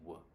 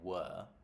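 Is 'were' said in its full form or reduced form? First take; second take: reduced; full. First: The word is said short and unstressed. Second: The word is said fully and stressed. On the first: The speaker calls it right. "I say were, right? Very short sound" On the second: The speaker calls it wrong. "I don't say were"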